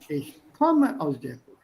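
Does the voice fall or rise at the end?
fall. The voice falls at the end. The speaker calls it right. "It falls at the end"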